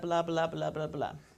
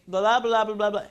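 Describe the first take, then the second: First: It is said at normal volume. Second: It is said loudly.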